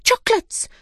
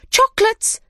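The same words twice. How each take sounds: First: Very high excited cry. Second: Very high and louder cry; excited cry. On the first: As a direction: squeal it out with glee. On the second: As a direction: squeal it out even louder. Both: A narrator's reading. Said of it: "they cried".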